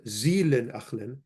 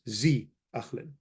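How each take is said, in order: First: The helper verb is said in full, zilin. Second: The helper verb is shortened to zi. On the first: A more formal way of saying it. "not zilin achlin" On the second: A casual, simpler way of saying it. "you'll hear sometimes zi achlin"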